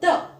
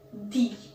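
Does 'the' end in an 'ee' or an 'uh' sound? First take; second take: uh; ee. First: The word ends in a short 'uh' sound. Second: The word ends in a long 'ee' sound. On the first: The next word begins with a consonant sound. "if it is beginning with a consonant sound, we call it as the" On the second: The next word begins with a vowel sound. "when a word is starting with a vowel sound, we pronounce the word as the"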